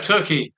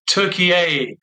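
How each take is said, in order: First: The name is said with two syllables. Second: The name is said with three syllables.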